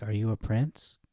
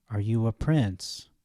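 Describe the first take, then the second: First: "Are you a prince?" asked lightly, rising on "prince"; rising question. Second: Slow, weighty question with a falling end; slow emphatic phrasing. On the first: Offering the other phrasing to the class, light rising question. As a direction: ask it plainly and lift at the end. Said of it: "It could be phrased". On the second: Phrasing the verse for the class, slow and emphatic. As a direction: lean on each word, then let it drop. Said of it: "the first part could be phrased". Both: Shown as a demonstration.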